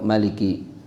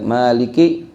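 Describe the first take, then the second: First: The first vowel is kept short. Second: The first vowel is held long.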